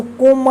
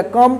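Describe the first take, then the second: First: "कोम" said with a long O vowel; wrong COME reading. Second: "कम" said with a short UH vowel; correct COME reading. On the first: Teacher warns learners against this reading, "कोम" with long O. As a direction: say "कोम" with the O of "home". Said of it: "इसको कोम मत पढ़िएगा". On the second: Teacher corrects the reading for learners, "कम" with short UH. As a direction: say "कम" with the vowel of "sum". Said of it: "कम पढ़िएगा". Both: Shown as a demonstration.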